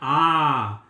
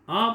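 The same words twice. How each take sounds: First: The vowel is said long. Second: The vowel is said short. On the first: "बड़ा क्या हो गया? आ, तो उसमें ज्यादा समय लिया गया" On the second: "छोटा आ, आ बोला"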